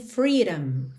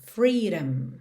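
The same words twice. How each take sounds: The two takes are said the same way.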